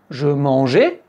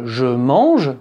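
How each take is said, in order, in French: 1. Le mot se termine par une voyelle 'ay'. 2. Le E final est muet.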